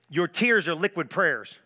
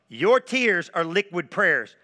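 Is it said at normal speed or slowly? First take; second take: normal; slowly. First: It is said at a normal speed. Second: It is said very slowly.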